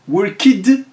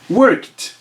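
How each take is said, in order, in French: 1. La terminaison se prononce comme une syllabe supplémentaire. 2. La terminaison se prononce comme un t bref. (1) "ça sonne pas bien à l'oreille" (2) "la prononciation se fera comme un T"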